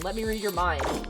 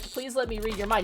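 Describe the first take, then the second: First: It is said as a forceful demand. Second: It is said as a polite request.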